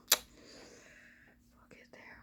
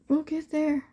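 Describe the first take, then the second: First: Slow whisper, trailing off; whispered to herself. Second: Said in the usual way. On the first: Real, not acted. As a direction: reassure yourself under your breath, very slowly.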